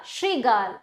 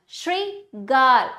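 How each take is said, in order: First: Said in the usual way. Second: श्रीगाल slowly in two parts, Shri... गाल; broken into syllables. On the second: Shown as a demonstration. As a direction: pause after Shri in श्रीगाल. (श्रीगाल को धीरे से तोड़कर: श्री... गाल) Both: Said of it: "तोड़कर पहले".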